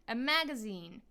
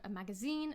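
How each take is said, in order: First: The stress is on the first syllable. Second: The stress is on the last syllable. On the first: This is the American way. "in the U S, they will stress the first syllable" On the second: This is the British way. "in British English, the stress on these words will be on the final syllable"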